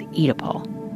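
The word is said with a British pronunciation. "the UK pronunciation is"

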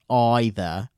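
The word is said with a British pronunciation. "I think the British use either as the pronunciation"

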